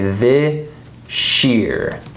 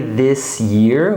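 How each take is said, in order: First: The s and y blend into sh. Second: The s and y sounds stay separate. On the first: The speaker calls it right. "It's just like what we saw here, right? It's sure" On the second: The speaker calls it wrong. "we don't say this year"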